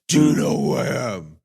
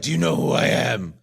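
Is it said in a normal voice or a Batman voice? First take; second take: Batman voice; normal. First: It is said in a gravelly Batman voice. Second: It is said in a normal voice.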